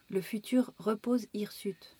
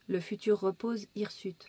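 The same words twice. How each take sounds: First: It is recited expressively, like reciting a poem. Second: It is read in a neutral, text-reading style. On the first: "Poème"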